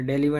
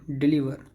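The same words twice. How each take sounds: First: डिलीवर started with "deh"; wrong pronunciation. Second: डिलीवर started with short "dih"; correct pronunciation. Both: Shown as a demonstration. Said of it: "डिलीवर नहीं".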